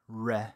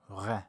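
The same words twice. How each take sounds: First: The r is an English-style r sound. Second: The r is made far back in the throat. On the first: The speaker calls it wrong. "something like the English letter R" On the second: The speaker calls it right. "Almost like I'm swallowing the sound until it's back where the uvula hangs down"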